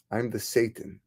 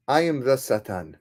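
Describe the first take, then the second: First: Satan said as SAY-tun; English pronunciation. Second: Satan said as sah-TAHN; Hebrew pronunciation. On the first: Old man repeats his identity, "Satan" pronounced SAY-tun in English. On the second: Old man reveals his identity, "Satan" pronounced sah-TAHN in Hebrew. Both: Acted. Same words, Hebrew then English name.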